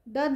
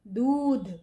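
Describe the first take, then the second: First: The vowel is said short. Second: The vowel is said long. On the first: The speaker calls it wrong. "दध नहीं हो सकता" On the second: The speaker calls it right. "तो क्या हो सकता है? दूध।"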